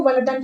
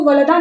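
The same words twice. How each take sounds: First: वलदन closed with a clear final n; वलदन with the nunation sounded as -an; correct reading. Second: वलदा ending in an open long aa, no n; वलदा with a bare long-vowel ending; wrong reading. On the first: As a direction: say वलदन ending in short a plus n. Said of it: "इसको वलदन ही पढ़ेंगे". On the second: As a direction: say वलदा with the final n dropped. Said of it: "इसको वलदा नहीं पढ़ेंगे". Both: Shown as a demonstration.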